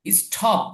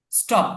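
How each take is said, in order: First: স্টপ with a breath puff after T, like ঠ; aspirated T. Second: স্টপ with ট, no puff of breath; unaspirated T. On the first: Teacher shows students the mistaken reading, স্টপ with ঠ sound. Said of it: "এখানে স্টপ হবে না". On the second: Teacher corrects the reading for students, স্টপ with ট sound. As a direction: say স্টপ with a plain retroflex T. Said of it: "ট এর উচ্চারণ". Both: Shown as a demonstration.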